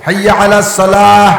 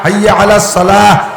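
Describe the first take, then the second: No difference in how they are said.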